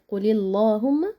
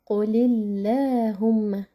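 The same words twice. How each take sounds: First: The L in Allahumma sounds heavy and thick. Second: The L in Allahumma sounds light and thin. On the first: The speaker calls it wrong. "this is incorrect pronunciation" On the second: The speaker calls it right. "light sound"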